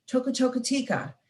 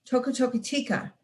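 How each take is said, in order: Both takes have the same delivery.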